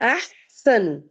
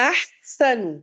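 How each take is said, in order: The two takes are said the same way.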